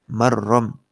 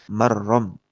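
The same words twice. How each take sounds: No difference in how they are said.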